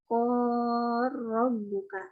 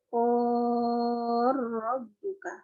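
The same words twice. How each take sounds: First: The long vowel is held medium length. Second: The long vowel is held long. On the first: "Yang tawasudnya" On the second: "Yang tulnya"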